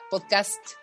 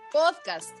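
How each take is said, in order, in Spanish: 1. El acento está en la segunda sílaba. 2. El acento está en la primera sílaba. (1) "Si no, se pronunciaría podcast" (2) "Podcast es una palabra grave... debe llevar la tilde en la O"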